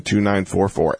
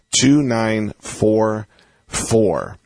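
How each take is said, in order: First: Said in the usual way. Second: "two nine four four" drawn out, with a pause before the last "four"; slow, deliberate digits. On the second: Real, not acted. Host repeating the call-in number for listeners, slow and deliberate.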